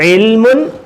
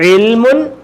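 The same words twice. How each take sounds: Both takes have the same delivery.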